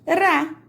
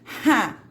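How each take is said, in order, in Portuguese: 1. O R é leve e precisa de pouca força. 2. O R é forte e raspa a garganta. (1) "do que Rá" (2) "A gente precisa fazer uma forcinha a mais para dizer Rá"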